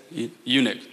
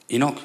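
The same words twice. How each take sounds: First: "eunuch" said as YOO-nuk; self-correcting to "eunuch" with a y-glide start; corrected pronunciation. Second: "Enoch" said as EE-nock; unsure, questioning "Enoch" with a long ee; mispronounced word. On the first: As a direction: stumble on the first syllable, then "eunuch" as YOO-nuk. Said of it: "That's what I meant to say". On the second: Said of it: "is that right? Is that how you say it?". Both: Real, not acted.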